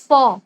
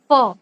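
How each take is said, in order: Both takes have the same delivery.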